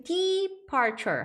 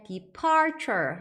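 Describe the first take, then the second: First: First syllable of "departure" stretched and stressed, DEE-parture; "departure" with a long, heavy opening DE. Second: Second syllable of "departure" punched and drawn out, de-PAR-ture; "departure" with a loud, long middle PAR; stress on PAR. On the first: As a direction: hit the DE in "departure" hard, wrongly front-stressed. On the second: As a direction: keep DE short, hit PAR in "departure". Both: Shown as a demonstration. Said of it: "강세도 주의하시면서".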